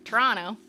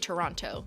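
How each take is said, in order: First: The name is said with sounds dropped. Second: The name is said with every sound. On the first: This is how locals say it. "which I do not say it like the people who live there say it" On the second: This is how an outsider says it. "like I pronounce it with the letters"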